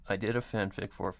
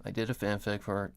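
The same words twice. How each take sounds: The two takes are said the same way.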